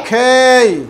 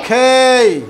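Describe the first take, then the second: Both takes have the same delivery.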